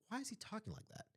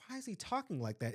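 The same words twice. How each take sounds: First: Hushed, high-pitched private thought; inner voice. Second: Quick, higher-pitched retold question; puzzled reaction. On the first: Retold or imitated. Speaker replays the question in their mind, hushed and puzzled. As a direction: think it aloud very softly, puzzled. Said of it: "In my mind, I said". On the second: Speaker recalls first hearing the boy, quick and puzzled. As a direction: ask it fast, as a baffled first reaction. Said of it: "at first, I'm like".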